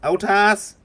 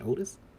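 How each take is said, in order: First: The name is called out in a thick Southern accent. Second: The name is said in a plain, neutral accent. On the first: "somebody with a really thick, like, southern accent" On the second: "it's still the same pronunciation"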